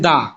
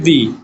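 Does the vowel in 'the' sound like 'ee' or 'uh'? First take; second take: uh; ee. First: The word ends in a short 'uh' vowel. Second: The word ends in a long 'ee' vowel. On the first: The next word starts with a consonant. "স্টার্টিংটা consonant থাকার কারণে দা" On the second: The next word starts with a vowel. "স্টার্টিংটা vowel থাকার কারণে দি"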